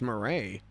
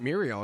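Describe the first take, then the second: First: The name is said without an L sound. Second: The name is said with an L sound. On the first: The speaker calls it right. "it's Murray ... I guess the L's are silent?" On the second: The speaker calls it wrong. "It's not Muriel"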